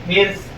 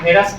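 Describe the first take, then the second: First: The r and s join with no vowel between. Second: It starts with e and adds a vowel before s. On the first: This is the proper form of the word. "लेकिन सही लफ्ज क्या है?" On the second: This is how it is said in the villages. "देहातों में चले जाइए तो वहां हेरस बोलते हैं"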